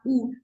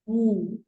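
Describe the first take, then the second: First: The vowel is said with no w before it. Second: The vowel is said with a w before it. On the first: The speaker calls it wrong. "It's not ooh" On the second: The speaker calls it right.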